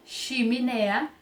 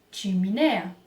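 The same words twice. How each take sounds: First: Chimenea with ch said as sh; ch softened to sh; wrong sh. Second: Chimenea with ch as tch; ch as in tchau; correct tch. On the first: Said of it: "não é chimenea". (chimenea com ch como x) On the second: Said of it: "é chimenea". (chimenea com tch) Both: Shown as a demonstration.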